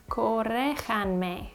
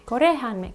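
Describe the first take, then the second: First: Corréjanme said slowly, syllable by syllable; slowly trying out corréjanme as a self-correction; slow careful correction. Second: Said in the usual way. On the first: Shown as a demonstration. Self-correcting her Spanish for viewers, slow and careful. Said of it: "Corregir is an I R verb. But do I use subjunctive?". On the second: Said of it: "Corregir is an I R verb".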